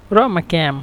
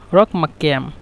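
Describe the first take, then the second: First: রমা with a glottal catch, ra'-ma, no q; qaf as hamza. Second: Said in the usual way. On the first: Shown as a demonstration. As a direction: drop the q in রমা ক্যাম for a hamza. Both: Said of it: "এখানে কফকে হামজার জন্য".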